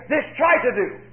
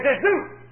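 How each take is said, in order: First: Said in the usual way. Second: "This do" with "do" lifted high and firm; stress on do. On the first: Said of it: "Notice, he didn't say". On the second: Shown as a demonstration. Preacher correcting the misquote of Jesus, firm stress on "do". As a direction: land squarely on "do", rising. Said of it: "He said".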